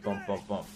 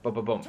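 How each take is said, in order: First: The three booms are spaced out slowly. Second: The three booms follow each other quickly. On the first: The gun fires its burst without rapid fire. The speaker calls it wrong. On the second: The gun fires its burst with rapid fire on. The speaker calls it right.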